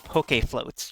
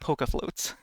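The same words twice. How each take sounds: First: The first word ends with an 'ay' sound. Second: The first word ends without an 'ay' sound. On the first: The speaker calls it right. "You have to pronounce the e like it's a" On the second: The speaker calls it wrong. "It's not poke floats"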